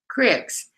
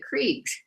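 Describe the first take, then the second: First: The vowel is short, as in 'sick'. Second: The vowel is long, as in 'seek'. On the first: This is how locals in one region say it. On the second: This is the general way of saying it.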